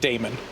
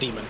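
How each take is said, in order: First: The first vowel sounds like 'day'. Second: The first vowel sounds like 'dee'. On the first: The speaker calls it wrong. "Thought that you s- pronounced that Damon" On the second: The speaker calls it right. "But it's just pronounced demon"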